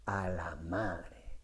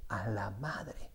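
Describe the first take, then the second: First: Low, slow, very soft freeze; frozen mumble. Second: Low, slow, very soft stunned mumble; frozen child repeating it under his breath; mock stunned mumble. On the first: Retold or imitated. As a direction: choke it out dazed and faint. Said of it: "cada vez que le ponen un micrófono". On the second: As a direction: say it dazed and nearly silent. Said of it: "Y repite".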